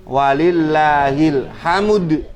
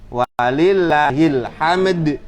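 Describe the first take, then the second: The two takes are said the same way.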